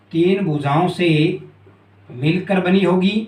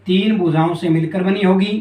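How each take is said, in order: First: तीन stressed and said slowly, the rest slow and spaced out; slow repeat. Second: Said in the usual way. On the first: Shown as a demonstration. Teacher repeating the point slowly for the class, stressing तीन.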